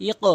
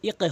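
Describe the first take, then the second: First: ইক echoed as a rounded "iqo"; correct qalqalah. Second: ইক echoed as a thin "iqe"; mistaken qalqalah. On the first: Teacher modelling the right form, ইক with upward bounce. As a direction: release the q of ইক into a heavy "o". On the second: Teacher warning learners what not to say, ইক as "iqe". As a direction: release the q of ইক into a wrong "e". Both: Shown as a demonstration. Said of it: "ইক হবে না".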